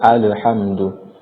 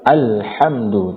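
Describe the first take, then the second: First: The L is released with a bouncing echo. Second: The L is held smoothly without a bounce. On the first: The speaker calls it wrong. "tidak dibaca alhamdu" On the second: The speaker calls it right. "jadi dibaca alhamdu"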